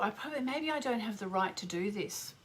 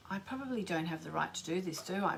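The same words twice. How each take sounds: First: Said in the usual way. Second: Softer, quicker second thought; quiet realisation. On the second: Real, not acted. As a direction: murmur it to yourself, unsure. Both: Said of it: "oh, I've just thought".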